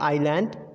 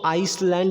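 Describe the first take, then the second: First: No s sound is heard after the first vowel. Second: An s sound is heard after the first vowel. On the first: The speaker calls it right. "The exact pronunciation" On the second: The speaker calls it wrong. "गलती से इसको आइसलैंड नहीं पढ़ा जाएगा"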